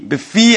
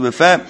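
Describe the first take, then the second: First: The word ends with an 'ee' vowel. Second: The word ends with an 'eh' vowel. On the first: The speaker calls it right. "it has to be befi" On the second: The speaker calls it wrong. "as opposed to befe"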